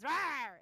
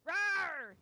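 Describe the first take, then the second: First: Loud monster roar; dinosaur voice. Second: Louder, higher monster roar; dinosaur voice. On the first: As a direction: roar it out like a beast. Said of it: "all you'll hear is". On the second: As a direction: belt the roar like a beast. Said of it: "what do we hear?". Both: Retold or imitated.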